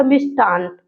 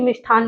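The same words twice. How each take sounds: First: मिष्टान with plain ट, as mishṭan; मिष्टान with unaspirated टा; correct form. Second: मिष्ठान with aspirated ठ, as mishṭhan; quick मिष्ठान with ठा; wrong form. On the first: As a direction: say मिष्टान lower, no puff. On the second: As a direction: puff the middle of मिष्ठान. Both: Shown as a demonstration. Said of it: "लेकिन मिष्ठान नहीं होता".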